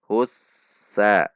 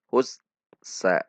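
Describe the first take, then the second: First: The s sound flows straight into the vowel. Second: The s sound is held back before the vowel. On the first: The speaker calls it right. "tidak tertahan atau mengalir" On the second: The speaker calls it wrong. "Tidak dibaca hus sa"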